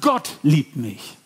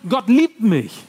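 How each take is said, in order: First: The word Gott carries the main stress. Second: The word liebt carries the main stress. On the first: It is God, not a human, who loves me. "Wow, da ist ein Gott, der mich liebt" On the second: God has loving thoughts toward me. "Er liebt mich"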